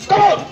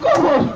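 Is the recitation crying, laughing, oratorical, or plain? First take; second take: oratorical; crying. First: It is recited in a grand, oratorical way. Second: It is recited in a weeping, tearful way. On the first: "সেরকম রাজনীতিক style" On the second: "তিনি একটু বেশি কান্নাকাটি করেন"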